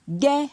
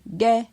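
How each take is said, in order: First: The syllable has a high tone. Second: The syllable has a mid tone. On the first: "Avec un ton haut" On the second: "Avec un ton moyen"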